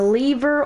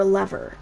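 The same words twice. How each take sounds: First: "lever" said LEE-ver; long-e pronunciation. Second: "lever" said LEV-er; short-e pronunciation. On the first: Player listing items gives the other pronunciation, "lever" as LEE-ver. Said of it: "or lever, as I call it". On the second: Player gives own way of saying it, "lever" as LEV-er. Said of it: "as I call it". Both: Shown as a demonstration.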